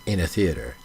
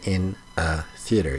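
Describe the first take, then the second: First: The words flow together as one unit. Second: Each word is said separately and clearly. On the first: "He says in a theater. Like it just kind of flows together" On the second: "It doesn't say in a theater"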